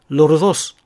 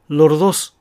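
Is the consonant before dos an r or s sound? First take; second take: r; r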